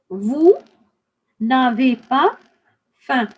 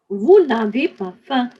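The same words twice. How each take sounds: First: The phrase is said at a slower pace. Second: The phrase is said at a faster pace.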